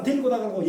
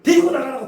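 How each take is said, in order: First: Said in the usual way. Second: Louder, sharp order to take them out; a pastor ordering them removed, loud; retold order. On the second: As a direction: snap out the order. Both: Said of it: "갑자기 그래요".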